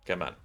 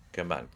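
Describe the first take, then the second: No difference in how they are said.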